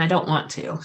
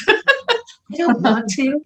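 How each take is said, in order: First: Said in the usual way. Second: Drawn out, higher, through real laughter; laughing. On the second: Real, not acted. Medium clarifying what she avoids seeing, laughing. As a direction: laugh your way slowly through it.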